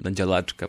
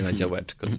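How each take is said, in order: First: The ł sounds like a clear dental l. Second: The ł sounds like an English w. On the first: "Tak z L przedniejęzykowym" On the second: "Nie na działeczko"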